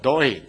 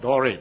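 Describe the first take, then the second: First: The R is pronounced softly. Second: The R is pronounced strongly. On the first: The speaker calls it right. "but Doré" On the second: The speaker calls it wrong. "not Doré"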